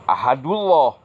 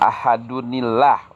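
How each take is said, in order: First: The two words merge, dropping the final n. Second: The words are joined with an added 'ni' sound. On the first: The speaker calls it wrong. "atau ahadullah, salah" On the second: The speaker calls it right. "Jadi ahadunillah"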